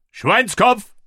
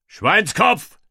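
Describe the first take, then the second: First: Higher, more urgent battle cry; shouted command. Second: Rising battle cry command; shouted command. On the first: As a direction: call it again, even higher. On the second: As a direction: call the formation out loud. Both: A narrator's reading. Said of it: "rief ich".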